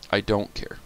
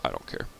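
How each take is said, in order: First: Said in the usual way. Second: Low, much softer sulky mutter; dropped low and soft, grumbling. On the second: Real, not acted. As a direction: mutter it under your breath, sulking. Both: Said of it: "I'm, I'm mad".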